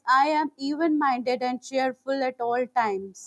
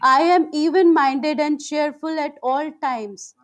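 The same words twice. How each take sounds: First: It is spoken at normal volume. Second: It is spoken in a loud voice. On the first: "In a regular voice" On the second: "first in loud voice"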